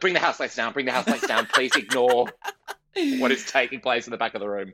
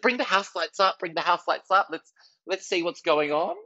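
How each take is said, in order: First: Hurried retreat, pitch back down; quickly covering an awkward moment; embarrassed backpedal. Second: Higher, keen call to the tech booth; confident teen comic calling out; eager onstage call. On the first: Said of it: "And I was like". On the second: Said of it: "I said". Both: Retold or imitated.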